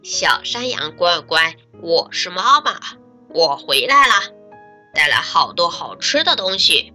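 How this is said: The wolf's voice sounds rough and coarse.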